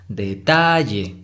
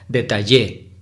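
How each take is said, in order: First: The stress is on the middle syllable. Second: The stress is on the last syllable. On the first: The speaker calls it right. "la sílaba tónica es la, la de en medio, ta" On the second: The speaker calls it wrong. "Y si fuera en, en la última sílaba, en Y, sería detallé. Y no"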